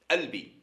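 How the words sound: The word begins directly with the vowel sound. This is how one particular region says it. "À Tlemcen, ils disent albi"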